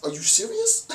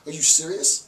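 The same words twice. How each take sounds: First: Much higher, squeaky incredulous "serious"; mock disbelief. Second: Said in the usual way. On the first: Lecturer scoffing at waiting for handouts, in high mock disbelief. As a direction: squeal it in fake shock. Mocking the begging idea.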